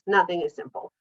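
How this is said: It is said with strong, firm confidence.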